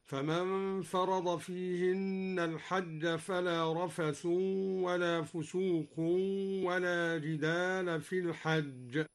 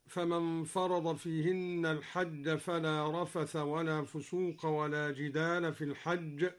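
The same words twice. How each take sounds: First: رفث and فسوق ending in -un, rafathun, fusuqun; رفث, فسوق read rafathun, fusuqun; u-ending with nunation. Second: Said in the usual way. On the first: Shown as a demonstration. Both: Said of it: "قرأ الدوري بالرفع والتنوين".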